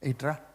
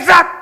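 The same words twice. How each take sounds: First: The call is said softly and casually. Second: The call is said loudly and urgently. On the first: The listener may or may not come. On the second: The listener must come at once.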